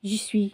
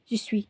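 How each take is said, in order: First: The words are run together and shortened. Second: The same.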